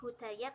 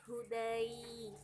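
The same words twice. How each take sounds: First: "hudaya" with a separate final -ya syllable; wrong ending. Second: "hudai" ending in one long gliding -ai; correct diphthong ending. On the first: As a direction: end "hudaya" on an open short a. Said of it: "bukan hudaya". ("hudaya" diakhiri suku kata -ya) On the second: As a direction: draw out the -ai of "hudai" with no extra syllable. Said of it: "tapi hudai". ("hudai" diakhiri bunyi -ai yang dipanjangkan) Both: Shown as a demonstration.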